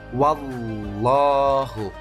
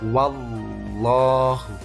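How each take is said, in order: Both takes have the same delivery.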